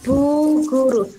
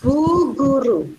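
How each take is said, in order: First: The g and r sounds are pronounced. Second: The same.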